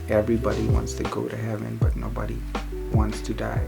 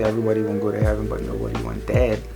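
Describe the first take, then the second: First: The sentence is spoken slowly. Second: The sentence is spoken quickly. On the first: "so I had to slow it down" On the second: "I think I said that fast"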